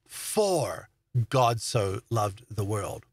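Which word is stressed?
for. The stress is on the word for.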